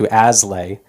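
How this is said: It is said the Americanized way. This is the pronunciation adopted in America. "he changed the pronunciation to"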